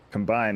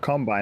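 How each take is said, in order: First: The stress is on the second syllable. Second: The stress is on the first syllable. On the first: It means to join things together. "but a combine is a verb" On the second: It names a farm machine. "A combine is a thing"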